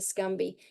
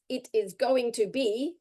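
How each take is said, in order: First: The words are squeezed into one short reduced chunk. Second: Each word is said fully and separately. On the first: "reduces down to Scumby" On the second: "the actual words for Scumby is"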